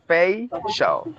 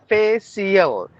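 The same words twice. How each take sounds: First: The ending is said like 'shall'. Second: The ending is not said like 'shall'. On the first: The speaker calls it right. "It's like facial" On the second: The speaker calls it wrong. "not facial"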